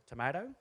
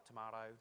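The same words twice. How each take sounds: First: Tomato said as tomayto with a rise; tomayto, rising. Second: Tomato said soft as tomahto; soft tomahto, the other way to say it. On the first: Speaker jokes about word choice, rising tomayto. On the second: Speaker jokes about word choice, soft tomahto. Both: Shown as a demonstration. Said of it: "some people say manipulate".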